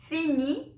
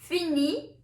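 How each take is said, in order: No difference in how they are said.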